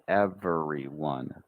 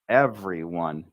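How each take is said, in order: First: It is said with four full syllables. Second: It is said with three syllables. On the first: "Those are all the full syllables in this word" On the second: "Some people say every, every, everyone"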